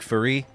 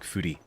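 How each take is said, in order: First: The word is said in an American accent. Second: The word is said in a Japanese accent. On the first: "American pronunciation would be like furry" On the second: "like with like the Japanese accent, it's like furi"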